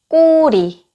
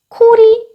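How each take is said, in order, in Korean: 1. 첫 자음은 된소리로, 힘을 주어 세게 발음됩니다. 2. 첫 자음은 공기가 터지면서 거센소리로 발음됩니다.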